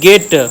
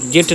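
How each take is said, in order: First: The word begins with a hard g sound. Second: The word begins with a j sound. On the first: The speaker calls it right. "गेट बोला जाता है" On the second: The speaker calls it wrong. "जेट नहीं"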